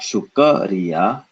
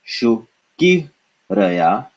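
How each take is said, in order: First: An a vowel is heard between k and r. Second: An i vowel is heard between k and r. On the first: "not shukariya" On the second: "and not shukiraya"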